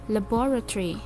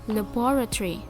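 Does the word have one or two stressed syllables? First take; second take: one; one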